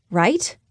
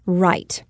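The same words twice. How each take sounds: First: "Right?" with a rising, questioning tune; doubtful question. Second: "Right." with a falling, settled tune; firm answer. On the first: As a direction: ask yourself "Right?" unsure. Narrator questioning herself. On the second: Narrator answering herself. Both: Acted.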